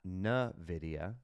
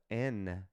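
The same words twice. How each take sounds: First: "Nvidia" said slowly as nuh-VID-ia, dropping the opening "en" sound; wrong pronunciation. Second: "Nvidia" said as en-VID-ia, with a clear opening "en"; correct pronunciation. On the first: Investor mocking a common mispronunciation, said slowly as nuh-VID-ia. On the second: Investor showing viewers the right way, en-VID-ia. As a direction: say "Nvidia" properly, starting with "en". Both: Shown as a demonstration. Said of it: "if you wanna pronounce it right".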